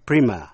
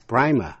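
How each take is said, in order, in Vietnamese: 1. Từ này được phát âm theo giọng Mỹ. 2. Từ này được phát âm theo giọng Anh. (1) "Phát âm primer theo giọng Mỹ" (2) "primer theo giọng Anh"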